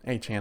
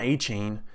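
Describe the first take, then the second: First: The last syllable sounds like 'chan'. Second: The last syllable sounds like 'chain'. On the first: The speaker calls it right. "Achan, not Achane" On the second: The speaker calls it wrong. "not Achane"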